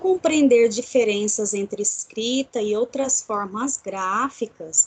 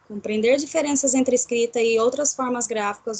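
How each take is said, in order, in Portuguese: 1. É lido devagar, com pausas claras. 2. É lido rápido, sem pausas. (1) "Desta forma que eu li aqui, pausadamente" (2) "Se eu ler sem pausas"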